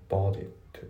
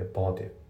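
First: "ボートイット" with the last T released as "t"; "bought it" with its final T pronounced; sounded final T. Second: "ボートイット" linked, last T nearly silent; English "boughtit" ending without a released T; dropped T. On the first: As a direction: finish "ボートイット" on an audible T. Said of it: "じゃなくて". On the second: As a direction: swallow the final T of "ボートイット". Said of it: "ほぼ発音されてない". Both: Shown as a demonstration.

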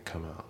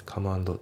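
First: Soft "come and" linked as "kaman"; linking. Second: "come and" as "kamu ando"; no linking. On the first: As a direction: slide the M of "come" into "and", softly, no D. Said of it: "come andのところがリンキングで". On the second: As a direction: keep "come and" as separate words with a full "do". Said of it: "じゃなくて". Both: Shown as a demonstration.

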